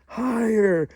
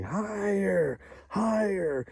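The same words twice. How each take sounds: First: Final higher, much higher and louder; the cheer peaks, punch it out; kids cheering louder. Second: Higher-pitched mock cheering of a crowd of kids. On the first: Retold or imitated. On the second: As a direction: egg him on like excited schoolkids. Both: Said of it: "they all started cheering".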